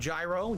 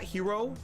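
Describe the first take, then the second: First: The word starts with a J sound. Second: The word starts with an H-like sound. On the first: This is the common way to say it. "instead of gyro, G Y R O" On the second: This is the authentic way to say it. "authentically pronounced like hero"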